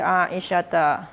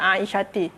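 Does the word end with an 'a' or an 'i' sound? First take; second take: a; i. First: The word ends with an 'a' vowel. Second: The word ends with an 'i' vowel. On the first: The speaker calls it right. "pakai fathah" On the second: The speaker calls it wrong. "tak boleh dia dibaca aisyati"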